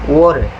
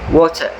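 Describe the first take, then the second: First: The middle T is a soft, quick tap. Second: The middle T is a full, clear stop. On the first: "you will hear them pronounce it as water" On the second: "They will pronounce the word water as water"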